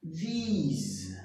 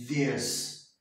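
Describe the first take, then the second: First: "These" drawn out with a long ee vowel. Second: "this" said low with a short, open E-like vowel. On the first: Teacher showing the plural sound, "These" with long ee. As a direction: stretch "These" on a clear ee sound. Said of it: "lembrar da letra I e falar". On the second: Teacher contrasting singular with plural, "this" with short E sound. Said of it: "O som de E". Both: Shown as a demonstration.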